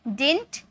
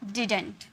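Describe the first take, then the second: First: The middle d sound is dropped. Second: The middle d sound is kept. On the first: "डिंट में pronounce करो" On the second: "डिडंट में pronounce करो"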